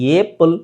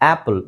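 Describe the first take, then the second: First: The first vowel sounds like 'ay'. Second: The first vowel sounds like 'ah'. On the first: The speaker calls it wrong. "ಏಪಲ್, ಏಂಬುಲೆನ್ಸ್, ಏಪ್ಟರ್ ಅಂತ ಹೇಳಲ್ಲ" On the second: The speaker calls it right. "ಆಪಲ್ ಅಂತ ಹೇಳಿ"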